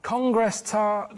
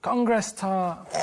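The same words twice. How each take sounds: First: Congress tart even slower, word by word; slower repeat. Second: Said very slowly and deliberately; slow code word. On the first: Carl repeating the code word after Ricky's what, slower still. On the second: Carl giving the code word on the pretend call, very slow. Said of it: "how's it going". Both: Pretend.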